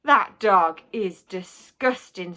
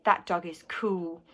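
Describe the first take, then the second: First: Slow, weighted disapproval; mild disgust. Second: Slow, low-key approval; understated admiration. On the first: Mum watches the dog licking himself, mild disgust. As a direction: spell out your distaste slowly and firmly. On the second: Boy answers mum about his dog, understated admiration. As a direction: answer back slowly and coolly. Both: A narrator's reading.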